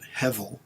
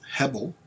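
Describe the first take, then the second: First: The middle consonant is a soft v sound. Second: The middle consonant is a hard b sound. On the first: "some people pronounce it Hevel, H E V E L" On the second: "the Hebrew word is Hebel"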